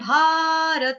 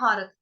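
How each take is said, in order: First: The word ends with its final vowel fully sounded. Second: The word ends on the consonant, final vowel dropped. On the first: This is the Sanskrit pronunciation. "Sanskrit में बोलते हैं भारत" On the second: This is the everyday Hindi pronunciation. "जैसे हिंदी में हम बोलते हैं भारत"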